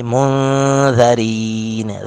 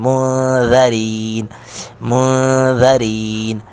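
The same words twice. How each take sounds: First: مُنذَرِينَ with ذ said softly, nun hidden; slow مُنذَرِينَ, gentle ذ; soft dhal. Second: مُنذَرِينَ with نون hidden in a light nasal; ikhfa. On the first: Teacher showing soft dhal. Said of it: "ذال کو نرمی کے ساتھ ادا کریں گے". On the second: Teacher demonstrating ikhfa before dhal. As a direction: recite مُنذَرِينَ slowly, nun nasalised. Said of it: "یہاں پہ اخفا کریں گے". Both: Shown as a demonstration.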